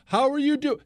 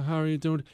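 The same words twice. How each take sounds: First: It is spoken loudly and clearly. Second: It is spoken quietly and mumbled. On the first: The speaker calls it right. "Speak up" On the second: The speaker calls it wrong. "He can't hear you"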